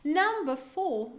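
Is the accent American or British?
British. It is said with a British accent. "no britânico"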